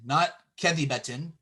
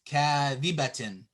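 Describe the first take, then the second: First: The marked vowel is clipped short. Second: The marked vowel is held long. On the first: The speaker calls it wrong. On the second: The speaker calls it right.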